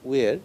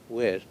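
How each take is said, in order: First: The vowel is said with a more closed mouth. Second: The vowel is said with a more open mouth. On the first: The speaker calls it wrong. "It is not where" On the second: The speaker calls it right. "say a little open it"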